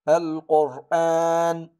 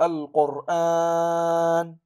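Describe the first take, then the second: First: The vowel after the hamza is held briefly. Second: The vowel after the hamza is drawn out longer. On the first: The speaker calls it right. "قرأنا هنا بحركتان فقط يعني بالقصر" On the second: The speaker calls it wrong. "ولم نقول"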